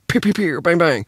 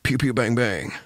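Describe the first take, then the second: First: The voice is placed high, nasal. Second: The voice is placed low, deep.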